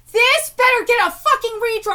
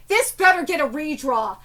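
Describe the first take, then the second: First: Angry demand. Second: Said in the usual way. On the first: Real, not acted. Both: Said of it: "I'm so mad".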